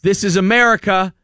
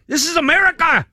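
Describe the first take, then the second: First: Higher, louder mock yell; angry man yelling at a driver, indignant; retold yelling. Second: Much higher, louder mock shout in a Hispanic accent; angry cowboy yelling in a Hispanic accent. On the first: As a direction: punch out this is America indignantly. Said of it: "screaming at the". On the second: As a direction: belt this is America in a thick Hispanic accent. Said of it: "with a Hispanic accent".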